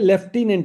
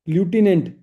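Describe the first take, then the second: First: The first syllable sounds like 'lef'. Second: The first syllable sounds like 'loo'. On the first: The speaker calls it right. "लेफ्टिनेंट बोला जाता है" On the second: The speaker calls it wrong. "ल्यूटिनेंट गलत हो गया"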